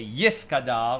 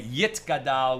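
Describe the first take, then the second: First: It is said with Ashkenazi Hebrew pronunciation. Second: It is said with Sephardic Hebrew pronunciation. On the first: "we say Yis Gadal" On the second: "we don't say Yit Gadal"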